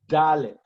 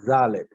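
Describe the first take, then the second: First: It starts with a hard d sound. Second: It starts with a soft th-like sound. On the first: "with your Dagesh makes a hard D" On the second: "Without the Dagesh, ... placing your tongue between the back of your teeth"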